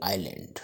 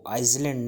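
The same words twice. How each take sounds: First: आइलैंड with the S silent, "ai-land"; correct pronunciation. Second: आइसलैंड with the S sounded, "aiz-land"; wrong pronunciation. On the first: Teacher showing learners how island is read, correct pronunciation. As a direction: say आइलैंड with no S sound. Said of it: "इसको पढ़ेंगे". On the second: Teacher showing learners the word not to read, wrong pronunciation. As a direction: say आइसलैंड with its silent S voiced. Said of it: "नहीं पढ़ेंगे". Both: Shown as a demonstration.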